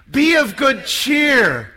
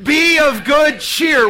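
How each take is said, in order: First: Said in the usual way. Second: Loud, beaming shout; with a big smile. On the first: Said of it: "Say it with me". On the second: Shown as a demonstration. Priest asking Catholics to smile, loud joyful shout. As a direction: shout it out smiling, slow. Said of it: "Say it again with a big smile".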